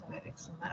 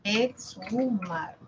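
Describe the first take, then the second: First: "exhumar" breathed almost voiceless, much softer; murmured to self. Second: "Exhumar" drawn out slowly, ex-hu-mar; slow syllable-by-syllable. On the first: Teacher reading the word to herself, near whisper. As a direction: read the word under your breath. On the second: Teacher sounding the word out for phoneme count, slowly. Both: Shown as a demonstration. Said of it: "Vamos a escribirlo en fonemas".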